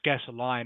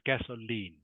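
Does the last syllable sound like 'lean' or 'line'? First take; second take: line; lean. First: The last syllable sounds like 'line'. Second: The last syllable sounds like 'lean'. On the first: The speaker calls it wrong. "not line" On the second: The speaker calls it right. "it's pronounced lean"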